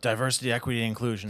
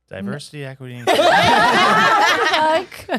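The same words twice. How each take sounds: First: It is said in a deeper voice. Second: It is said in a sultry, sexy voice.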